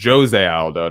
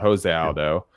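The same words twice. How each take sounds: First: The J at the start is clearly sounded. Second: The J at the start is silent. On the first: The speaker calls it right. "because it's not silent in Port in in Portuguese, so it's it's Jose Aldo" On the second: The speaker calls it wrong. "not Jose Aldo"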